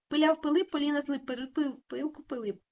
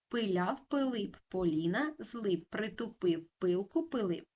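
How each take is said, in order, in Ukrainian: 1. Вимовляється дуже швидко. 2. Вимовляється повільно. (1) "А тепер дуже швидко" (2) "Повільно"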